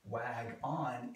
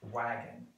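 First: It is said as two separate parts. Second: It is said as one blended word. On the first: The speaker calls it wrong. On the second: The speaker calls it right.

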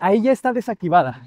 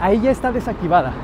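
First: Traffic noise is filtered out behind the voice. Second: Traffic noise is clearly heard behind the voice. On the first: "Así es como se escucha con la reducción de ruido directamente en DaVinci Resolve Studio" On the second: "ahí ya está desactivada. Entonces deberían escucharse los autos"

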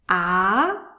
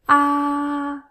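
First: The pitch rises from low to high. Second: The pitch stays high and level. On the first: "The second tone is a rising tone" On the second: "The first tone is a high tone"

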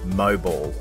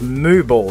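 First: It sounds like the word mobile. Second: It sounds like the two words moo ball.

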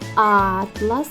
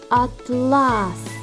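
First: The stress is on the first syllable. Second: The stress is on the second syllable. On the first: A book of maps. "Перший" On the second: A shiny fabric. "Другий"

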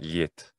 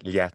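First: The vowel is a closed e sound. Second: The vowel is an open e sound. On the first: The speaker calls it wrong. "It's not liet" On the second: The speaker calls it right. "It ends with an unpalatalized t, so it's liet"

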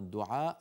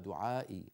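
First: The word ends in a short i vowel. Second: The word ends in a long ee vowel. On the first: "العرب تكتفي بالكسر عن ياء المتكلم" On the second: "أصلها دعائي"

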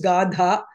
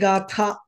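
First: The middle consonant is a d sound. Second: The middle consonant is a th sound. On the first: This is the form used in Telugu. The speaker calls it wrong. "I've always used it as Gadha" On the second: This is the form used in Sanskrit. The speaker calls it right. "in Sanskritam, it is actually Gatha"

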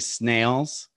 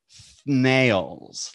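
First: The word begins with a plain s sound. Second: The word begins with a th sound. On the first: "instead of saying snails" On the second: "make it a TH sound"

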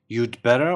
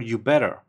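First: The d sound in "you'd" is pronounced. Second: The d sound in "you'd" is left out. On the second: "You can drop D and say you better"

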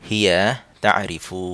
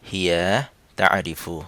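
No difference in how they are said.

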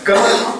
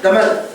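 First: The word begins with a g sound. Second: The word begins with a d sound. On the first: Some Arabs say it this way in their dialect. "சிலவங்க கமல் நடுவாங்க" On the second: Other Arabs say it this way in their dialect. "இன்னும் சில அரபிகள் தமல்"

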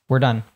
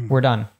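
Both takes have the same delivery.

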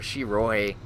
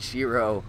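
First: The name ends with an added final vowel sound. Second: The name ends on the 'o' sound. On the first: The speaker calls it right. "I think it's supposed to be technically pronounced Shiroi, because the E at the end" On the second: The speaker calls it wrong. "fucking Shiro"

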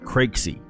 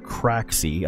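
First: The name is said like 'crazy'. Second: The name is not said like 'crazy'. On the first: "Like crazy" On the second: "I believe that's how you pronounce it"

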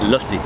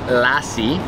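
First: The first vowel sounds like the 'u' in 'cup'. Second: The first vowel sounds like the 'a' in 'cat'. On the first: "But it's lussi" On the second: "it's spelled lassi"

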